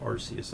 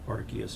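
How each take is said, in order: First: The C is said soft, like an S. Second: The C is said hard, like a K. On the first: This is the pronunciation the speaker prefers. "I still prefer to say Arceus... That soft kind of rolling C" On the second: This is the official pronunciation. "the official one, anyways, is like Arceus"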